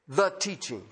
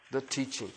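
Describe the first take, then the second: First: Said in the usual way. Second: A hushed echo of the teaching; soft echo. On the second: Shown as a demonstration. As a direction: repeat it much softer, almost to yourself. Preacher repeats key phrase softly.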